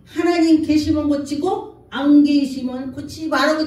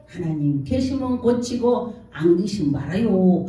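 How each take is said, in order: First: Raised, forceful demand to God; defiant prayer. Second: Offhand prayer. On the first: Unbeliever daring God to heal him, defiant raised voice. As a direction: push it out loud like a challenge. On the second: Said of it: "이러고서 하늘을 쳐다보고". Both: Retold or imitated.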